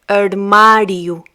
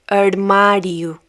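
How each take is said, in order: No difference in how they are said.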